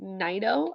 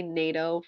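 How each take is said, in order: First: Said in the usual way. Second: Naito with first syllable like "nay"; long A in Naito instead of an "eye" sound; mispronounced name. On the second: Shown as a demonstration. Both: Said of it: "I keep on wanting to say".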